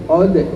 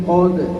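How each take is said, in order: No difference in how they are said.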